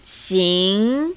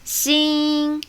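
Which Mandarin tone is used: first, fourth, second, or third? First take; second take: second; first. First: The syllable is said with tone two. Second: The syllable is said with tone one. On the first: "Tone two" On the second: "Tone one"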